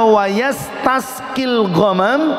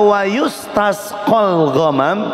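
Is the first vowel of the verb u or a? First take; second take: a; u. First: The verb starts 'ya' and ends in 'i'. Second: The verb starts 'yu' and ends in 'a'. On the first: The clouds are overcast and rain falls at once. "kalau dibacanya wayastasqil ghamam itu awan yang mendung langsung turun hujannya" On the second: The clouds are only overcast. "kalau dibaca wayustasqal ghamam itu awannya baru mendung doang"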